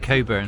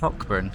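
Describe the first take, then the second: First: It is said 'Coburn', with no 'k' sound. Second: It is said as spelt, with a 'k' sound. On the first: The speaker calls it right. "But it's actually Coburn" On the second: The speaker calls it wrong. "like it's spelt"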